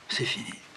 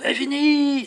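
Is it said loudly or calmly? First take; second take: calmly; loudly. First: It is said quietly and calmly. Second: It is said very loudly.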